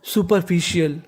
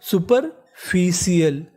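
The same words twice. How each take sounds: First: सुपरफिशियल with the r barely heard; soft r. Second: सुपरफिशियल drawn out slowly, each syllable clear; slow sounding out. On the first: Teacher says सुपरफिशियल with a hidden r. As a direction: swallow the r in सुपरफिशियल. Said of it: "आर का उच्चारण ऐसे करना है कि सामने वाले इंसान को पता ना चले". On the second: Teacher slowly sounding out सुपरफिशियल for students. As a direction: spell it slowly as you say it. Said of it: "सुपर, F I C I A L". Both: Shown as a demonstration.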